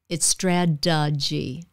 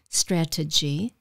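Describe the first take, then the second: First: The middle consonant is a soft D sound. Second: The middle consonant is a crisp T sound. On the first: The speaker calls it right. "change the T to a D sound" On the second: The speaker calls it wrong. "So it's not strategy"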